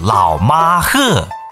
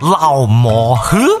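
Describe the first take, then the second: First: It is said in standard Mandarin. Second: It is said in Changsha dialect. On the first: "说了普通话就是老马喝" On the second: "叫做老马喝"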